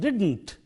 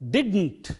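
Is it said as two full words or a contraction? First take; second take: contraction; contraction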